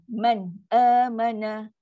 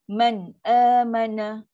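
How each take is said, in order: Both takes have the same delivery.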